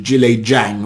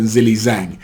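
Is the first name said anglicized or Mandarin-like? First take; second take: Mandarin-like; anglicized. First: The first name is said closer to Mandarin. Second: The first name is said like English 'Zilly'. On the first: The speaker calls it right. "I will refer to him as Zhilei Zhang" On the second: The speaker calls it wrong. "I was calling him Zilly Zhang"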